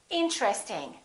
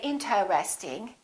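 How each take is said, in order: First: It is said with only three syllables. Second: It is said with four full syllables. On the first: The speaker calls it right. "They say interesting" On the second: The speaker calls it wrong. "Most people don't say interesting"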